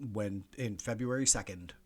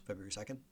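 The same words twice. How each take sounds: First: Said in the usual way. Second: Quiet, softer "February second?" with a questioning rise on "second"; doubting question. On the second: Real, not acted. Host doubts his own date, quiet rising question.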